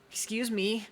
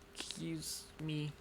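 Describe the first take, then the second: First: It is said in a Deku impression. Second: It is said in his normal voice.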